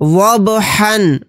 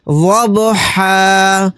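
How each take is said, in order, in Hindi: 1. यह शब्द n ध्वनि पर खत्म होता है। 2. यह शब्द लंबे a स्वर पर खत्म होता है। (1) "हा दो ज़बर हन" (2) "आयत करने की सूरत में हा के ऊपर दो ज़बर नहीं पढ़े जाएंगे, बल्कि एक ज़बर अलिफ के साथ पढ़ा जाएगा।"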